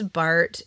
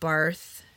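First: The name ends with a plain t sound. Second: The name ends with a th sound. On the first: The speaker calls it right. "it's Barth ... even though it's spelled Barth, because he's German" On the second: The speaker calls it wrong. "It's not Barth"

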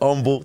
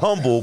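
First: The word begins without any h sound. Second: The word begins with an audible h sound. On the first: The speaker calls it right. "H is silent" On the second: The speaker calls it wrong. "Not humble"

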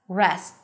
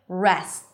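The two takes are said the same way.

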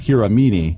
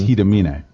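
First: The name is said the way it is spelled. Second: The name is said with its Japanese pronunciation. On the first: The speaker calls it wrong. "When you look at it, it says Hiramine" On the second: The speaker calls it right. "But because it's Japanese, it's Hidamine"

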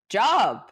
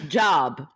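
First: The word is said in a surprised tone. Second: The word is said in a neutral tone.

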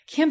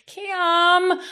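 First: The name is said in a grateful tone. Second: The name is said in a whiny tone.

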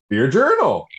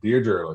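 First: It is said in an excited, energetic way. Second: It is said in a plain, ordinary way.

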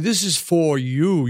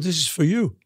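First: The word 'for' is said in full. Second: The word 'for' is reduced to 'fuh'. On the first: The speaker calls it wrong. "you don't say" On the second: The speaker calls it right. "You go, ... F-U-H"

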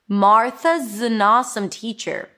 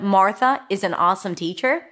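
First: Is is reduced to a z sound after Martha. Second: Is is said as a full separate word. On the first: "Instead of Martha is an awesome teacher, Martha's" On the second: "Instead of"

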